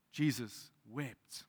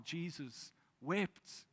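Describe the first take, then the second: First: Very slow, weighty pause between words; Jesus wept, drawn out solemnly; slow solemn reading. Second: Very slow and soft, almost a breath; Jesus wept, whispered slowly; hushed slow reading. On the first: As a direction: let each word sink in. Shortest verse, read solemnly. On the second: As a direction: drop to a hush and stretch it. Verse repeated for emphasis. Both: Acted.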